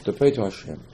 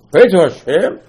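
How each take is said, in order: First: Said in the usual way. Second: "Pray" louder and higher, "Hashem" lifted at the end; emphatic repeat. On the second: Shown as a demonstration. Preacher answering what we gotta do, emphatic on "Pray to Hashem". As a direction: punch out "Pray to Hashem" with a rising finish.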